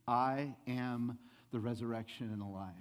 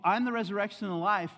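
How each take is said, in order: First: Comforting Jesus. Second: High, loud imitation of an impatient Jesus; imagined rebuke. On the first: Retold or imitated. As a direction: voice Jesus gently giving assurance. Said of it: "in the midst of your grief". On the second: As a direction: declare it forcefully, as if scolding mourners. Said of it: "but you think".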